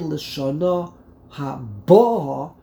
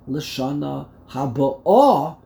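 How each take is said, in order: First: The stress falls on the middle syllable of haba'a. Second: The stress falls on the last syllable of haba'a. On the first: The year that has already arrived, this year. "you put the emphasis on the base" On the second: The coming year, next year. "you put the emphasis on the Aleph"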